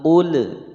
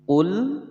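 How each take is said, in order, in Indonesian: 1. L terakhir dilepas dengan gema memantul. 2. L terakhir ditahan dengan jelas tanpa pantulan. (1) "Tidak boleh membaca qul karena lam bukan huruf qalqalah" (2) "dibaca jelas, tidak boleh dipantulkan"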